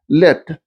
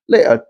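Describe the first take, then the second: First: The vowel is short and plain. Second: The vowel is drawn out with a glide.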